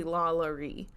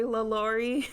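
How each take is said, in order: First: "Lalaurie" as LAH-luh-ree, no "lor" in the middle; French-derived pronunciation. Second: "Lalaurie" as luh-LOR-ee, stressed on "lor"; mistaken pronunciation. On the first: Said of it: "it's technically Lalaurie". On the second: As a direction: say "Lalaurie" with an open "lor" middle. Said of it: "I apologize if I say". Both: Shown as a demonstration.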